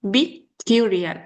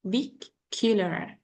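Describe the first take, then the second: First: Peculiar drawn out slowly, stress on the second syllable; slow peculiar, leaning on the middle syllable. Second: Peculiar said slowly and softer, syllables separated; slow stressed model. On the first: Teacher models peculiar stress for the student, slowly. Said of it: "we have stress in peculiar". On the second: Teacher repeats Peculiar softly and slowly for student. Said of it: "we separated by stress". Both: Shown as a demonstration.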